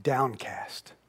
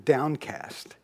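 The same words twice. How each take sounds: First: Breathy whispered downcast, said low and sinking; a hushed, sinking downcast. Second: Said in the usual way. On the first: Shown as a demonstration.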